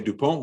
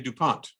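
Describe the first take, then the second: First: The name is pronounced the French way. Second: The name is pronounced the English way. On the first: "the French would say" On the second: "We would say"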